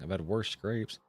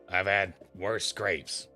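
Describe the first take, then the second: First: It is read in the speaker's normal voice. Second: It is read in a put-on ghoul voice.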